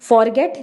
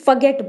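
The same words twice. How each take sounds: First: The word is said with an r sound. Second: The word is said with no r sound. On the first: The speaker calls it wrong. "नहीं बोलना" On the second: The speaker calls it right. "इसमें र की आवाज़ नहीं आएगी, हमें सिर्फ फॉरगेट बोलना है"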